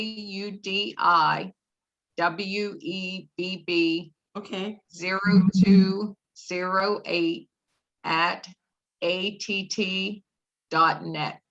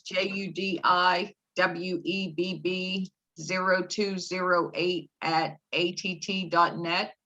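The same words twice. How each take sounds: First: It is spoken more slowly. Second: It is spoken at a normal pace.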